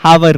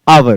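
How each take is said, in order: First: The word begins with an h sound. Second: The word begins with a vowel, no h. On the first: The speaker calls it wrong. "हावर नहीं होता" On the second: The speaker calls it right. "आवर होता है"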